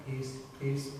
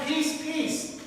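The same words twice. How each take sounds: First: Much lower and much softer, a hushed Quaker "Peace, peace"; gentle Quaker pleading, low and hushed. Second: Higher, soft Scotch-Irish lilt on "Peace, peace"; a hint of a Scotch-Irish farmer begging for peace; lilting Scotch-Irish plea. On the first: Retold or imitated. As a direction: murmur "Peace, peace" low and soft like a meek Quaker. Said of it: "or the Quakers very much will be going". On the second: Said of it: "with a lilting Scotch-Irish accent".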